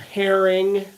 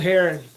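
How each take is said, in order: First: It is said carefully and clearly enunciated. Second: It is said in a casual rural accent. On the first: The speaker calls it right. "let me enunciate" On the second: The speaker calls it wrong. "my hillbilly ways"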